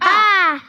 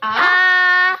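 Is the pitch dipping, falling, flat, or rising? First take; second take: falling; rising. First: The pitch falls sharply from high to low. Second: The pitch rises from low to high. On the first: "Jadi nadanya itu turun" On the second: "Nada kedua itu nadanya naik"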